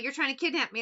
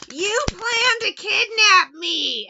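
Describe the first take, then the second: First: Said in the usual way. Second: High, loud, whiny wail of a man in a trance; mock his tearful whine, way up high and loud; whiny crying voice. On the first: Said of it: "he's like". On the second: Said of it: "doing this real whiny voice".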